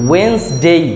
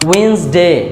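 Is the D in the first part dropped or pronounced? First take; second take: dropped; dropped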